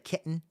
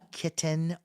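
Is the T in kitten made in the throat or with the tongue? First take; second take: throat; tongue. First: The T is a catch in the throat. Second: The T is made with the tongue. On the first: "right here at the back" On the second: "saying the T with their tongue"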